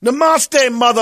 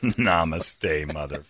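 First: High, loud, mocking Namaste, mother; hammy mock yoga greeting. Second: Soft, low, under-the-breath Namaste, mother; quiet repeat. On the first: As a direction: toss it off like a yogi. Joke line, high and loud. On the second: Pretend. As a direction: mutter it back to yourself.

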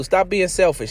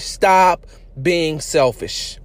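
First: Said in the usual way. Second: Every word of "Stop being selfish." drawn out slowly; slow and emphatic. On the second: Shown as a demonstration.

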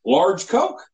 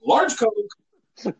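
First: "Large Coke?" rising like a question; asking tune. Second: "Large Coke." said as a falling statement; flat repeat. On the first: Drive-thru kid asking about the order, rising on "Large Coke?". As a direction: lift "Coke?" up at the end as a query. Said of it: "and he just says". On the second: Cashier repeating the order, falling tune on "Large Coke.". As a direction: state "Large Coke." flatly, voice dropping at the end. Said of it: "He repeated the order". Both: Retold or imitated.

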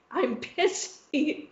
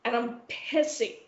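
First: "I'm pissy" stretched very slow and soft; drawn-out pissy. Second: Said in the usual way. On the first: Real, not acted. The host tells friends how cross she was, slow and sulky. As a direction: savour "pissy" slowly, sulking.

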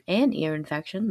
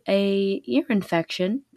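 First: "an ear infection" with the n linking into "ear"; corrected article. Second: "a ear infection" with plain "a" before "ear"; slip: "a ear infection", no n on the article; wrong article. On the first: Shown as a demonstration. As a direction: fix it: "an ear infection", stress on "an". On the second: Real, not acted. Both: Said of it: "That was stupid".

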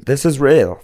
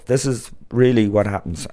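First: Louder, higher push on "This is real."; emphatic repeat. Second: "really" leaned on with a falling tune; stress on really. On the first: Telling the listeners it truly happens, louder. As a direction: insist "This is real." with a raised voice. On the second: Insisting to listeners the custom is true, "really" stressed. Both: Real, not acted.

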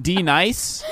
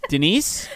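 First: D-NICE as "dee-nice", rhyming with ice; joke pronunciation. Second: Said in the usual way. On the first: Shown as a demonstration. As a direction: stretch D-NICE into two parts, dee-nice, as a question. Joke pronunciation against [name].

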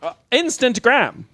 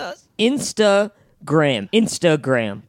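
First: "instant gram" with a full gap between instant and gram; instant gram mispronounced. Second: "Instagram" slow and clear, stress on IN; "Instagram" said slowly as one word; careful correct pronunciation. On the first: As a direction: say "instant gram" as two words, instant and gram. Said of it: "I'm saying what you're saying". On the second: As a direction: spell out "Instagram" slowly for him. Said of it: "Say it again". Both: Shown as a demonstration.

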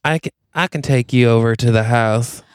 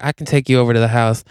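First: Put-on drawling Texas accent; Texas twang. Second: Put-on quick Texan cowboy accent; Texas twang. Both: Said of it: "he's got a Texas twang".

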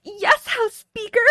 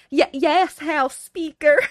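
First: High, slow feeble moaning. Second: High, slow, breaking moan; feeble moan. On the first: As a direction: moan it out weakly, higher. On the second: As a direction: stammer it out weak and high. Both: Acted. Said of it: "Ted moaned out feebly".

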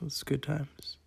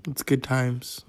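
First: "good times" repeated much softer, as an aside; much softer echo. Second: Said in the usual way. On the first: Shown as a demonstration.

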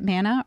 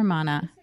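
First: "Manna" with the flat a of "man"; Manna pronunciation. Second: "Mana" with an open ah, MAH-nah; Mana pronunciation. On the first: Host checks the restaurant's name, "Manna" with a short a. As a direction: say "Manna" to rhyme with "Hannah". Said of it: "is it Manna or Mana". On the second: Host checks the restaurant's name, "Mana" with a broad ah. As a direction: say "Mana" with the a of "father". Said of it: "I'm gonna say Mana". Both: Shown as a demonstration.

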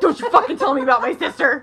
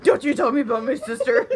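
First: Louder, higher, through laughter; hammed-up protective brother; laughing mock-furious scolding; mock outraged brother. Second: Laughing re-quote. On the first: Brother's outraged retort retold. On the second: Retold or imitated. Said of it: "It was so funny".

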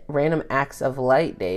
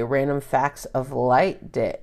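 First: "Acts" said without f, fixed reading; correcting herself. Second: "Facts" said with an f, misread word. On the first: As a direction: correct to "Random Acts" cleanly. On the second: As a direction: read "Random Facts" slowly with f. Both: Real, not acted.

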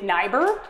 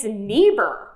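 First: "Niebuhr" as NIGH-ber, rising; long I vowel. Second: "Niebuhr" as NEE-ber, falling; long E vowel. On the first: Host polls audience, "Niebuhr" as NIGH-ber. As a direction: rhyme the start of "Niebuhr" with "sigh". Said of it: "Please clap if you think Niebuhr". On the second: Host offers the rival option, "Niebuhr" as NEE-ber. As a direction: start "Niebuhr" like "knee". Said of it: "clap if you think it's Niebuhr". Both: Shown as a demonstration.

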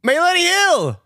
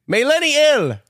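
First: May Lenny ill chopped, higher; each syllable as its own word; split syllables. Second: Said in the usual way. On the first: Shown as a demonstration.

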